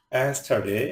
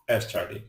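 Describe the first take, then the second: First: Yesterday drawn out as yes, ter, day, ending on a rise; split into syllables. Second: Said in the usual way. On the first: Shown as a demonstration. Teacher showing learners what a syllable is, split into syllables. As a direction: say yesterday syllable by syllable, last one rising. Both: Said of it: "যতটুকু অংশ একসাথে উচ্চারণ করা".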